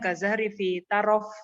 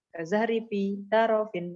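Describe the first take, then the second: First: The last word ends bare, without -in. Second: The last word ends with an added -in. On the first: It is read as prose. "dibacanya wakaf ya" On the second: It is read as poetry to fit the meter. "Kalau syair sih ini dibaca soalnya ketukannya kan sesuai"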